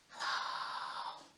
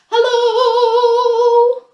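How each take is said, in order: First: It is said very quietly. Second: It is said very loudly.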